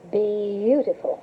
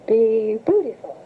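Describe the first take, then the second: First: "Beautiful" drawn out slowly, each syllable; slow careful "Beautiful", pee-yoo-ti-ful; Norfolk beautiful. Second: "Be beautiful" said slowly, clearly; careful corrected "beautiful" with a slight lilt. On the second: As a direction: model "beautiful" slowly for the pupil. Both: Shown as a demonstration. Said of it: "learn how to say beautiful".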